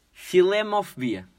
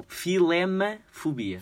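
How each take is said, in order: First: "Filemofobia" said with an o after "filem", slowly; mispronounced first try. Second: "filemafobia" said slowly with a clear a after "filem"; corrected pronunciation. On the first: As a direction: read the word with the wrong vowel, "filemo". (pronúncia errada: "Filemofobia") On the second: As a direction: correct yourself carefully: "filemafobia". (correção lenta e cuidada: "filemafobia") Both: Shown as a demonstration. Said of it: "Não, filemafobia".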